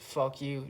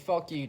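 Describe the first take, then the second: First: It is said flatly, with little tone. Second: It is said playfully, with a raised pitch. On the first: The speaker's intent cannot be told. "just like this ... my lack thereof tone of voice" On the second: The speaker is only kidding. "my tone of voice raised, which is usually a little bit more like a high pitch"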